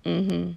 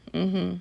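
No difference in how they are said.

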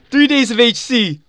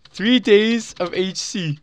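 First: Shrieking jackpot winner. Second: Savoring excited. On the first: Announces jackpot prize. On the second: Repeats prize slowly. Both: Real, not acted.

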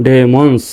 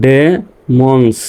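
First: Said in the usual way. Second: Slow "demons", split into ডে and মন্স; teacher's slow sounding-out; syllable by syllable. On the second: Shown as a demonstration. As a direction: leave a gap inside "demons". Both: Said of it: "পর্যন্তই উচ্চারণ করব".

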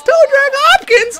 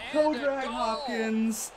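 First: "Toe drag Hopkins" shouted very high and loud; ecstatic shout. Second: Chanted, "Toe drag Hopkins" dropped much softer and slow; chanted, savor the nickname quietly after the shouting; soft drawn-out chant. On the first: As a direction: yell the nickname at the top of your lungs. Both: Real, not acted. Chanting player nickname after goal.

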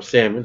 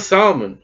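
First: Salmon with a short flat "a", as in Sam; alternative pronunciation. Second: Solomon with a long "ah" first vowel; variant pronunciation. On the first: Preacher offering the congregation another way, alternative pronunciation of Salmon. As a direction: say Salmon like SAM-un, lower and softer. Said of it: "however you want to say it". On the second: Preacher reading the genealogy aloud, first pronunciation of Solomon. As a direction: say Solomon as SAHL-mun. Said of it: "ever decide how to say Solomon". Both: Shown as a demonstration.

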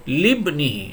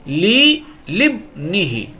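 First: Said in the usual way. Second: লি লিবনিহি drawn out slowly, লি held before লিবনিহি; slow recitation. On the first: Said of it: "এখানে লি সাধারণত". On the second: Shown as a demonstration. Teacher reciting to students, slow chanted demo. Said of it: "তাহলে দেখুন এখানে".

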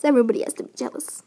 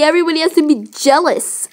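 First: Said in the usual way. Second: Snide mock of her words; mocking imitation. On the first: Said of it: "that's the kind of girl you are". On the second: Dog mocking vain date's words, mock imitation. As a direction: mimic her to mock her vanity. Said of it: "Oh, look at me".

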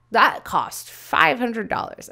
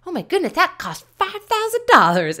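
First: Louder, slower, emphatic quote; quoted price remark. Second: High, loud mock astonishment; exaggerated amazement. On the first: Retold or imitated. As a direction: stretch out the price, impressed. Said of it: "Somebody could be like". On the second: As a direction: gasp it out as outrageous gossip. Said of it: "go back and be like".

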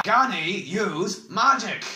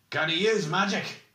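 First: Slow, loud, high roar. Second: High, insistent question; pointed demand. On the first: Oric cutting off the bald man's evasion, roaring. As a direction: bellow the question word by word. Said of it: "roared Oric, his deep voice echoing". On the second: Oric questioning whether the prisoner can use magic, insistently. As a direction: press the question firmly. Oric's first, less forceful demand. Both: A narrator's reading.

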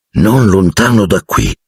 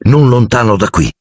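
First: A knowing, pointed repeat; meaningful. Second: Eager, higher pitched news; excited. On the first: Ron repeating the news to Harry, pointed. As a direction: say it with a look that means more. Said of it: "sguardo eloquente". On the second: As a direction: blurt it out thrilled. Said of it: "disse Seamus eccitato". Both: A narrator's reading.

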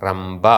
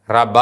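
First: റംബ with doubled b; correct reading. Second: റബ said undoubled; single b in റബ; wrong reading. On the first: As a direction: hold the double consonant in റംബ. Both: Shown as a demonstration. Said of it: "അല്ല".

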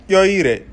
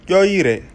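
The two takes are said the same way.

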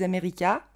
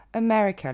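First: America en syllabes égales, « ka » final montant; prononciation à la française. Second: America avec ME accentué, voyelles voisines brèves; prononciation anglaise. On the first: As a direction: dis America comme un Français : a-mé-ri-KA. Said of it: "La plupart des Français disent America". (America à la française, finale pleine) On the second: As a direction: dis America à l'anglaise : e-ME-re-que. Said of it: "l'accent tombe sur le mais". (America en anglais, finale réduite) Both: Shown as a demonstration.

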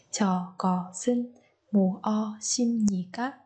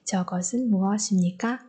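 First: "Cho có xin mua xin nhỉ các?" spoken very slowly, each word separate, sounds not linked; slow teacher demo, every syllable apart. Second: "Cho có xin mua xin nhỉ các?" at natural pace with the sounds run together across words; flowing demo with the sounds linked; natural linked pronunciation. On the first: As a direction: spell it out slowly for learners, no linking. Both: Shown as a demonstration. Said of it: "Chúng ta nối âm ở đây và ở đây".

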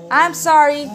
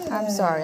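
First: Said in the usual way. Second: Lower, softer sorry to the dog; tender apology. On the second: Real, not acted. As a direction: soothe the dog gently.

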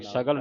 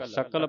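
First: ਸਗਲ with voiced g, "sagal"; mistaken g sound. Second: ਸਕਲ with unvoiced k, "sakal"; k sound. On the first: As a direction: show the misreading ਸਗਲ as "sa-gal". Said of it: "ਸਗਲ ਨਹੀਂ ਪੜ੍ਹਨਾ". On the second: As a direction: clear k in the middle of ਸਕਲ. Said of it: "ਸਕਲ ਪੜ੍ਹਨਾ ਕੱਕੇ ਦੇ ਨਾਲ". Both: Shown as a demonstration.

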